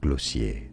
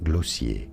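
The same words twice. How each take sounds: First: It is said the French way. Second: The same.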